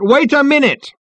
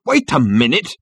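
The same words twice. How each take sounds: First: High, loud, desperate yell; full-voiced objection, pitched right up; shouted protest. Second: Restrained first call, rising at the end; mild, slightly raised objection; shouted protest. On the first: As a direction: shout over a cheering crowd. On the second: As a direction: try to interrupt, voice lifting. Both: A narrator's reading. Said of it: "shouted Ford Prefect".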